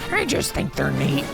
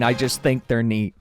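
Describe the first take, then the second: First: It is said in a raspy, put-on cartoon voice. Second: It is said in a plain, ordinary speaking voice. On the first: "Marge sounds like Toad, but if he was a smoker" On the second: "I just was saying the line"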